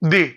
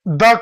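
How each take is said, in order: First: The word ends in a long 'ee' vowel. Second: The word ends in a short 'uh' vowel. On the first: The next word starts with a vowel. "उसको दी बोलते हैं उच्चारण में" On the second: The next word starts with a consonant. "उसका उच्चारण द होगा"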